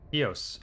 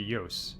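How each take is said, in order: First: The name begins with a plain vowel sound. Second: The name begins with a 'y' sound. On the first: "I'm gonna call it Eos" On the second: "If you pronounce it in Spanish, it would be Yos"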